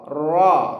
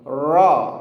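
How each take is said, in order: No difference in how they are said.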